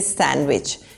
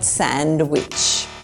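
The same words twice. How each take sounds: First: The D sound is left out. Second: The D sound is pronounced in the word. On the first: The speaker calls it right. "the D is not pronounced. We say sandwich" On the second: The speaker calls it wrong. "not sandwich"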